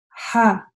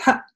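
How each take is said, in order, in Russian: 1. Слог короткий, но полностью завершённый. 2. Слог резко обрывается и становится очень коротким. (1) "короткая буква" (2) "мне тоже не нужно ее сильно сокращать"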